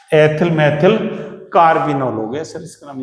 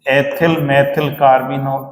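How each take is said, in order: First: Said in the usual way. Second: Ethyl methyl carbinol drawn out very slowly; slow dictation. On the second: Shown as a demonstration. Teacher dictating a compound name to students, very slowly. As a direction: stretch every syllable for the class. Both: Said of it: "ऐसे ही लिख दे".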